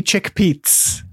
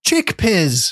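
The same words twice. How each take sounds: First: "chickpeas" said as chick-peets, with a ts ending; "chickpeas" pronounced chick-peets, pitched up; alternative pronunciation. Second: "Chickpeas" said as chick-pizz, higher pitched; "Chickpeas" as a pun on pizza, pitched up; pronunciation play. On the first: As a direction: end "chickpeas" in a sharp ts, as in pizza. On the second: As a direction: say "Chickpeas" with the clipped form of pizza as its ending. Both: Shown as a demonstration. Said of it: "how do you pronounce the abbreviation".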